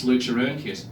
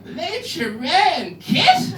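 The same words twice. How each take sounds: First: Said in the usual way. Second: "Lucha Kit" very high and drawn out as a question; puzzled cop lady. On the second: Retold or imitated. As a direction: stretch "Lucha Kit" in a hammed-up baffled voice. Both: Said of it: "And then she did this".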